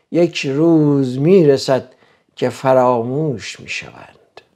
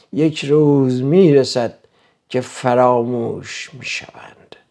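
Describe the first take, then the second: Both takes have the same delivery.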